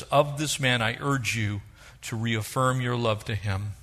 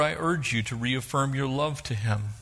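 First: "Of" leaned on, the whole line slowed down; stress on Of. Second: Said in the usual way. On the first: Shown as a demonstration. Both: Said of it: "And the Apostle Paul says".

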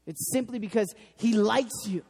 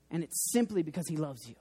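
First: Said in the usual way. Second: Soft hushed take. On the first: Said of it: "repeated line, plain second take". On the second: Shown as a demonstration. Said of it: "repeated line, softer first take".

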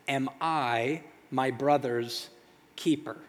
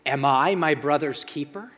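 First: Slow, disbelieving echo. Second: Defiant retort. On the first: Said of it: "letting it sit there like". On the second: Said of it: "And Cain goes". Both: Acted.

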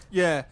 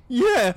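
First: Said in the usual way. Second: Put-on high teenage squeak on YEAH; squeaky yeah. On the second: Teenager agrees with gang, YEAH pitched too high. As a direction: let YEAH slip upward, adolescent. Teen voice high, then clears throat.

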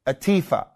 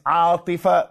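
First: Atifa stressed on the middle syllable; anglicized Atifa with a long "ee"; anglicized pronunciation. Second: Atifa stressed on a long first syllable; Arabic Atifa, long first vowel and short middle; Arabic pronunciation. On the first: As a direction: say Atifa the American way, "a-TEE-fa". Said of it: "we anglicize them". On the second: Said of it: "The name is Atifa". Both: Shown as a demonstration.

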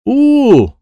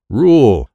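First: "Ooh" for rule, R dropped, high and loud; missing R sound. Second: Said in the usual way. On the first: Acted. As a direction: strain out "Ooh", unable to make the R. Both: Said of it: "I wish I could say R".

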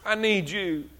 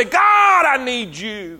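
First: Much softer, lower repeat; hushed plea to God; quiet plea. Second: Crying out to God. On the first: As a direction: drop down low and soft. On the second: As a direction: call out to God, then let it fall. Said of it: "crying out to God and say". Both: Acted.

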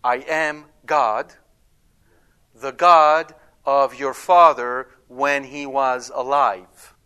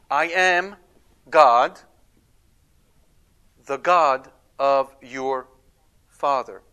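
First: "I am God" loud and slow, each word drawn out; slow, weighted declaration. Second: "I am God" loud and slow, stretched out; slow, weighted declaration. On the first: Preacher voices the wrong reading of God's words, loud and slow. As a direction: stretch the line out, heavy and slow. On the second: Preacher shows how God speaks to Jacob, slow and loud. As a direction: give each word weight, slowly. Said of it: "Notice, what does God say?". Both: Shown as a demonstration.

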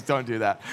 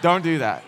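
First: Said in the usual way. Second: Playful warning. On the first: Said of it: "He goes". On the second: Real, not acted. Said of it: "Chris gave me a look".

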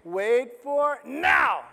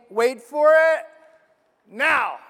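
First: Slow God's voice. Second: Loud, higher call of wait for it; God's voice. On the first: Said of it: "God is saying". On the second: Preacher to congregation, voicing God loudly. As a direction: boom out God's announcement. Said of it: "It's basically like God saying". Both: Retold or imitated.

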